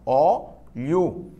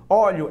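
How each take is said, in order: First: "óleo" split into ó and leo; two separate syllables. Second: Said in the usual way. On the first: Shown as a demonstration. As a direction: say "óleo" in two drawn-out beats. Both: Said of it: "são duas sílabas só".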